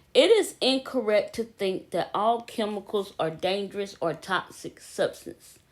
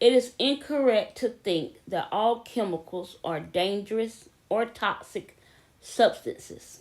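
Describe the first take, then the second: Both takes have the same delivery.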